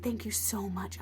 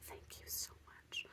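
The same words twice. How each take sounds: First: Said in the usual way. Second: Very soft, slow whisper; whispered thanks. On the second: Retold or imitated. Thanking the healer in a hushed whisper. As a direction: breathe the thanks almost silently.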